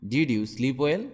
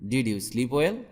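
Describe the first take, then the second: No difference in how they are said.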